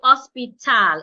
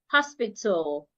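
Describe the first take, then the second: First: The last syllable has a full 'a' vowel. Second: The last syllable has a reduced, barely heard vowel. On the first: The speaker calls it wrong. "I would not say hospital. It wouldn't be t, al, tal" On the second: The speaker calls it right. "The A that would not be heard, so it becomes t, l, tul"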